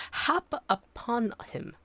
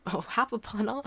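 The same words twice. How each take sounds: First: "hap upon him" said slowly, each word drawn out; slow careful retry. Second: Hap upon him, said quickly as a first try; a plain first pass at "hap"; trying the word. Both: Shown as a demonstration.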